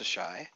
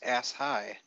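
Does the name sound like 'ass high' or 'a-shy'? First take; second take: a-shy; ass high. First: It sounds like one word, 'a-shy'. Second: It sounds like the two words 'ass high'. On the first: The speaker calls it right. "but is instead pronounced Sashai" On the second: The speaker calls it wrong. "is not pronounced ass high"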